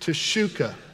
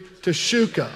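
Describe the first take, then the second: First: It is said with low energy. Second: It is said with high energy.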